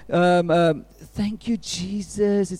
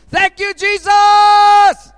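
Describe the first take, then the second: First: It is said in a quiet, restrained voice. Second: It is shouted in a loud voice. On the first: The thanks is polite and reserved. "let's be dignified" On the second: The thanks is wholehearted and unrestrained. "he cries with a loud voice"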